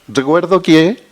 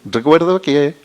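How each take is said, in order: Both takes have the same delivery.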